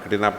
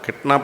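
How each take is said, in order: First: An extra vowel splits the word into three syllables. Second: The word is said in two syllables. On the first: The speaker calls it wrong. "ഒരു sir വന്നൊരു വാക്കോട്ട് വെച്ചു" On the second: The speaker calls it right. "മിടുക്കിയായ ഒരു teacher വന്ന് ക്ലാസ്സിൽ പഠിപ്പിച്ചപ്പോഴാണ്"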